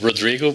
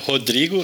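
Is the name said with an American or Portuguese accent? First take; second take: American; Portuguese. First: The name is said with an American accent. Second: The name is said with a Portuguese accent.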